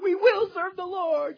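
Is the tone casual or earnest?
casual. It sounds casual and flippant. The commitment is made lightly and overconfidently. "I don't know if they said"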